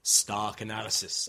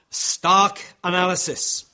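First: Said in the usual way. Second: "Stark analysis" slow, loud and higher; "Stark analysis" raised and drawn out for weight; emphatic. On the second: Real, not acted. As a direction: hammer out "Stark analysis" word by word. Point repeated for emphasis.

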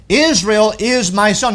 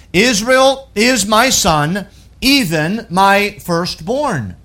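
First: Said in the usual way. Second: "Israel is my son" drawn out slowly with a rise on "Israel"; slow, weighty emphasis. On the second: Shown as a demonstration. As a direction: lean on "Israel", slow and deliberate.

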